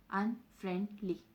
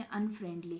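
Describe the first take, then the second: First: "अनफ्रेंडली" broken in three, "अन", "फ्रेंड", "ली"; split into syllables. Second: Said in the usual way. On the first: Shown as a demonstration. Teacher counting three syllables for students, "अनफ्रेंडली" split apart. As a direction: say "अनफ्रेंडली" syllable by syllable with small gaps. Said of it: "बोल के देखो". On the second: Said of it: "तीन syllables".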